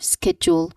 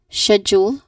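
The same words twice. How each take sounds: First: It is said with an American pronunciation. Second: It is said with a British pronunciation. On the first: "in American English" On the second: "as in in British English"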